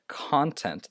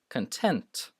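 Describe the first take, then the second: First: The stress is on the first syllable. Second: The stress is on the second syllable. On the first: The speaker calls it wrong. "this is not uh, content" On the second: The speaker calls it right. "it's the following syllable that is stressed"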